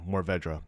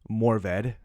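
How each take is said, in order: First: The word ends with a full 'ra' syllable. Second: The word ends without a final 'ra' syllable. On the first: This says the word as it is spelled. "I say it how I see it" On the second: This is the French way of saying it. "You you keep the re, you know, silent"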